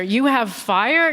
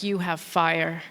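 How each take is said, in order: First: Slow, rising mock question; quizzical repeat. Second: Low, slow, soft come-on; seductive Frenchman. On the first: Comedian repeating the Frenchman's line, puzzled. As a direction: savour the odd compliment. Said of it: "What a thing to say". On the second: Retold or imitated. Parisian man approaching a stranger, low and slow. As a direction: purr it like a smooth Parisian. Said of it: "He was like".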